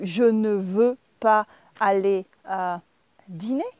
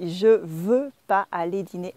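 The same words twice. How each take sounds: First: "Je ne veux pas" with a distinct ne; careful, halting textbook French, each word of "Je ne veux pas" separate; full textbook negation. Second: "Je veux pas" with no ne; casual spoken French "Je veux pas aller dîner", run together; dropped ne. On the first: French teacher gives the textbook version, carefully keeping ne. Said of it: "instead of saying". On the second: French teacher shows learners everyday speech, ne dropped. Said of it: "we drop the ne". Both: Shown as a demonstration.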